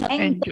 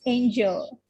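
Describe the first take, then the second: First: Angel opening like "an"; short A in angel. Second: Angel opening like "ain"; long A in angel. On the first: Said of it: "it is not angel". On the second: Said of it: "but it is angel". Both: Shown as a demonstration.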